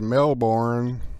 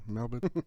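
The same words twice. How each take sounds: First: It is said with an American pronunciation. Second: It is said with an Australian pronunciation. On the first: "here in America we say" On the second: "Did I say it like you guys do?"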